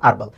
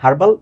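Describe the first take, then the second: First: The word starts with a vowel, h silent. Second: The word starts with an audible h sound.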